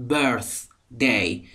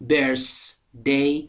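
First: Birthday with the tongue between the teeth for th; correct th in birthday. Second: Birthday with an s sound, "bersday"; wrong pronunciation of birthday. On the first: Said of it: "زبان بین دندانهای بالا و پایین". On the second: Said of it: "Birthday نیستا". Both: Shown as a demonstration.

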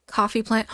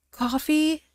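First: Said in the usual way. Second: Rising, amazed Coffee? asked in disbelief; real delighted surprise; surprised question. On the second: Real, not acted. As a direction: ask Coffee? as if you can't believe it.

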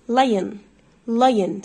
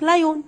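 First: Lion as "LIE-yn", no o sounded; teacher modelling "LIE-yn"; silent O. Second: LION with a full "o", "lay-yoon"; wrong pronunciation. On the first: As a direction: glide from the I straight to the N in lion. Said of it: "ال O لا ينطق". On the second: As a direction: say لايون with a clear long oo at the end. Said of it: "النطق غلط". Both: Shown as a demonstration.

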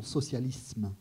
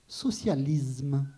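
First: Socialisme with a crisp unvoiced s, sosyalism; standard pronunciation. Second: Socialisme said slowly with a voiced z, sosyalizm; drawn-out socialisme with a southern z sound; southern pronunciation. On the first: Reading Barthes to the audience, socialisme with a standard s. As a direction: standard Parisian socialisme with a hard s. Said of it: "et non". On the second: Reading Barthes to the audience, socialisme with a southern z. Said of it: "Je dis". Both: Shown as a demonstration.

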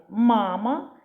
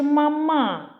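First: "Мама" as MA-ma, rising as an offered choice; stress on first syllable. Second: "мама" as ma-MAA, higher and long on the end; stress on second syllable. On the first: Teacher asking which is correct, "Мама" stressed on the first syllable. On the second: Teacher offering the wrong choice, "мама" stressed on the second syllable. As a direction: put the weight on the last syllable of "мама". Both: Shown as a demonstration. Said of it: "Як правильно все ж таки".

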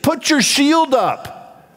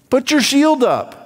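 First: Much higher, very slow, each word pressed, stress on shield; slow commanding order. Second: Said in the usual way. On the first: Acted. Preacher ordering a doubting believer, slow and emphatic. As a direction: drive the order home word by word.

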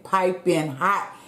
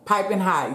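First: Piping hot drawn out slowly, rising on hot; slow, savoured. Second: Said in the usual way. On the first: Shown as a demonstration. Showing viewers the steaming food, slow and savoured. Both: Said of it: "Y'all see it?".

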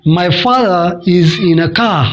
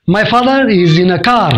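First: "father" as "fadha", "car" as "ka", no R, British accent. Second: "father" and "car" with the R sounded, slow American accent. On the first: Teacher demonstrates the British accent to students. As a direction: drop the Rs like a British speaker. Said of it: "Britain में बोलेंगे". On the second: Teacher demonstrates the American accent to students. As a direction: say it the American way, every R clear. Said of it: "America में इसी को बोलेंगे". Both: Shown as a demonstration.

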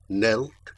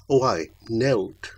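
First: Knelt? asked with a rising, doubting tune; questioning rise. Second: Oh, ay, knelt with a falling, assured tune; knowing confirmation. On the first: Balin doubting the damsel's tale, rising question. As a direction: echo Knelt? as a disbelieving question. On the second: Damsel confirming her slander to Balin, falling and sure. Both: Acted.

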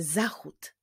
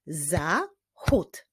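First: Said in the usual way. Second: "Zachód" broken into za, chód; syllable by syllable. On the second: Shown as a demonstration. Teacher shows pupils how to clap it, "Zachód" split by syllable. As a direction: say "Zachód" as two spaced beats, pausing between. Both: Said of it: "wyklaszczmy sylaby w wyrazie zachód".

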